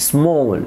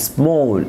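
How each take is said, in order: No difference in how they are said.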